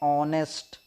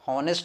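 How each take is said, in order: First: The word begins without an h sound. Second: The word begins with an h sound. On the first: The speaker calls it right. "एच silent रहता है" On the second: The speaker calls it wrong. "भाई साहब आपका गलत है, हॉनेस्ट नहीं पढ़ते"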